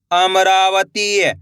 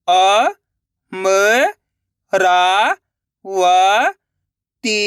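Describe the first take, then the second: First: अमरावती joined into one slow word; blended word. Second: अ, म, रा, व, ती held, with gaps; syllable by syllable. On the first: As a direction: say अमरावती whole, drawn out. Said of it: "तो मिलके बन जाएगा". (अमरावती मिलाकर, धीरे से) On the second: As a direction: sound out अ, म, रा, व, ती one by one. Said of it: "एक एक अक्षर का उच्चारण करके". (अ, म, रा, व, ती अलग-अलग) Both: Shown as a demonstration.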